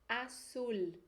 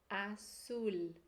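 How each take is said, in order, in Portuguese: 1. O z soa como um s forte. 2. O z soa como um s forte.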